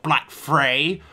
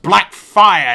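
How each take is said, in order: First: The second part sounds like the word 'fray'. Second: The second part sounds like the word 'fire'. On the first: The speaker calls it wrong. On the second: The speaker calls it right.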